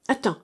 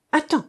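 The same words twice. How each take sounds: First: Said in the usual way. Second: Attends called out high and loud; a sudden higher cry of attends; cried out. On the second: A narrator's reading. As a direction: shout attends to stop her. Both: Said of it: "s'écria-t-il".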